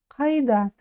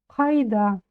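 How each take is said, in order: The two takes are said the same way.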